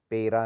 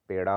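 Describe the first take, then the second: First: पेरा with plain r; wrong r. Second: पेड़ा with a retroflex flap; correct ड़. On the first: Teacher showing the error, पेरा with plain r. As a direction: say पेरा with tapped r. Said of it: "नहीं होता". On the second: Teacher correcting it, पेड़ा with retroflex sound. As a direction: curl the tongue in पेड़ा. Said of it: "होता है". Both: Shown as a demonstration.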